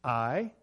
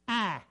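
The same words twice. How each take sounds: First: Said in the usual way. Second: Higher, Kentucky-style vowel in "I"; mimicked Kentucky "I"; Kentucky accent. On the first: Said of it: "in Ironton, I would say". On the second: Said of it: "He would say".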